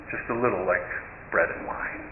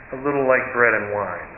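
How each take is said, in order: First: Softer, breathy whisper trailing away; hushed whisper. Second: Said in the usual way. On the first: Shown as a demonstration. Storyteller repeats the taste of the soup to the congregation, whispered. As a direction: let it sink in, almost unvoiced.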